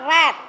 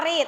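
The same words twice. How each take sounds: First: Teacher models read with a short e, as red; past tense read. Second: Teacher says read with a long ee, as reed; present tense read. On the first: Teacher shows students past tense read, like red. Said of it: "But we have to pronounce read". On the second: Teacher contrasts spelling for students, read like reed. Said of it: "Tulisannya sama ya". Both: Shown as a demonstration.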